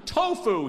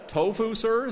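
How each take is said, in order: First: High, loud triumphant outburst; exultant, punched-out exclamation. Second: High, loud questioning echo; baffled hotel manager's question; incredulous query. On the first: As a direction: announce it like the winning answer. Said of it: "he said triumphantly". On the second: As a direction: repeat it back in polite disbelief. Manager echoes the answer in disbelief. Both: A narrator's reading.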